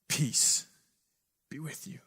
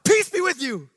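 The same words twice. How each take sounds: First: It is said quietly and softly. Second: It is yelled out loudly. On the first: "in a real quiet, soft voice" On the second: "you just kind of yell it out"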